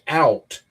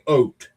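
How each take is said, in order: First: The vowel is a wide 'ow' sound. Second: The vowel sounds closer to 'oh'. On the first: This is how others say it, not Canadians. "they don't say out" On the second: This is how Canadians say it. "They say oat"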